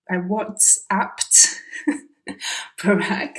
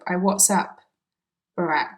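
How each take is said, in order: First: The -ed ending is clearly pronounced. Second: The -ed ending is dropped entirely. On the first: "instead of saying" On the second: "it sounds like he's using um, a present tense verb"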